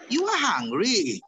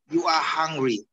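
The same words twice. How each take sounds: First: The voice rises at the end like a question. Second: The voice is firm and falls at the end. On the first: It is a question. "Bisa bedanya? Itu namanya positive question" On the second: It is a statement. "Nadanya tegas"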